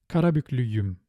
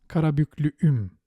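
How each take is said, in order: First: A y sound links the two vowels. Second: The vowels meet with no y sound between. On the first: The speaker calls it right. "the same very helper sound in between" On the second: The speaker calls it wrong. "so that you wouldn't pronounce Karabüklüüm"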